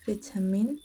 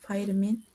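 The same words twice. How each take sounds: First: It is said with a British accent. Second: It is said with an American accent. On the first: "for the British English accent it's" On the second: "and American accent is"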